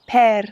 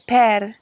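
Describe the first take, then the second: First: It is said with an Italian accent. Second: It is said with an Italian accent.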